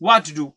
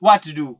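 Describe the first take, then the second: The two takes are said the same way.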